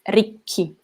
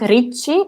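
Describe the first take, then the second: First: The middle consonant is a hard k sound. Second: The middle consonant is a soft ch sound. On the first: The speaker calls it right. "the sound is hard" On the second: The speaker calls it wrong. "It's not ricci"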